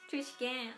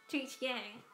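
The two takes are said the same way.

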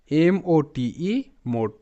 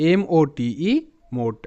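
The two takes are said the same way.

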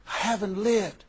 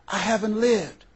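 First: Softer, hushed repeat of "I haven't lived"; soft echo. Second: Said in the usual way. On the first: Retold or imitated. Friend repeating her regret to herself, softer. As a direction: let "I haven't lived" fall away quietly.

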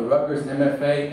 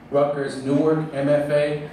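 First: Said in the usual way. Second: "Newark" picked out as the corrected word; stress on Newark. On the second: Real, not acted. Host correcting himself on the programme's name, stress on "Newark". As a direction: lean on "Newark" to fix the name. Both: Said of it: "excuse me".

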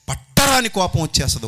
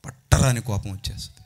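First: Raised, forceful preaching cry; angry sermon peak; loud outburst. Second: Said in the usual way. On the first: Shown as a demonstration. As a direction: throw it out high and loud. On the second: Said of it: "పట్టరాని కోపం వచ్చేస్తది ఒక్కోసారి".

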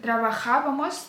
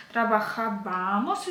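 First: Трабахабамос with stress on ха, the third syllable; correct stress. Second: Трабахабамос slowed, stress wrongly moved to ба. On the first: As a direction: stress the first А of the ending in трабахабамос. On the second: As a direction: lean on БА, the next-to-last syllable of трабахабамос. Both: Shown as a demonstration. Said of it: "ось тут ставлять наголос, але то є неправильно".

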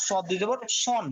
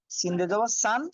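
First: "সন" with a heavy s and rounded vowel; heavy sad. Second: "সান" with a thin, light s; light sin. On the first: Teacher contrasting two letters, heavy "সন". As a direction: say "সন" full and emphatic. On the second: Teacher contrasting two letters, light "সান". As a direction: say "সান" with an open a and plain s. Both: Shown as a demonstration. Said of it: "পার্থক্য বুঝতে হবে".

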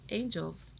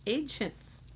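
First: Angels said as the wrong word, softly; the wrong word Angels, spoken aloud; mistaken angels. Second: Agents said clearly with the j sound, as the fix; Agents, the right word after the slip; corrected agents. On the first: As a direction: say Angels as the slip before the fix. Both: Shown as a demonstration.

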